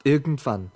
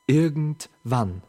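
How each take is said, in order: First: Said in the usual way. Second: Slow, stretched word; drawn out. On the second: Acted. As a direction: let the word linger. Repeated, second slowed.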